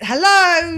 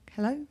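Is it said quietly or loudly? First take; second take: loudly; quietly. First: It is said very loudly, almost shouting. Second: It is said at normal, quieter volume.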